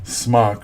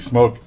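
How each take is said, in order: First: The vowel is short, rhyming with lock. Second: The vowel is long, rhyming with joke. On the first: This is how some reviewers say the brand. The speaker calls it wrong. "some of the British reviewers pronounce it smock" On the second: This is the intended name of the brand. The speaker calls it right. "intended to be smoke"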